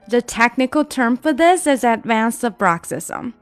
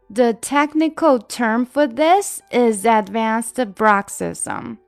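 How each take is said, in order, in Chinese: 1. 这句话说得最快。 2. 这句话说得慢一些。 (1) "我们加快一点点。" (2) "整句来。"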